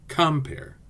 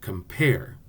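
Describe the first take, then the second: First: The stress is on the first syllable. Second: The stress is on the second syllable. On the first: The speaker calls it wrong. "It sounds wrong if we say" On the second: The speaker calls it right. "The accent is on the second syllable. Listen"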